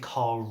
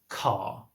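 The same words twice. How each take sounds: First: The final R is pronounced. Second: The final R is silent.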